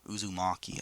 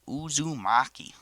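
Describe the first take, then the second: First: The word is said plainly, without a twang. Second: The word is said with an exaggerated twang. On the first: "I think it's called" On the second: "I like saying it with that twang"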